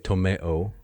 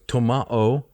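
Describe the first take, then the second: First: The middle vowel sounds like 'ay'. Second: The middle vowel sounds like 'ah'.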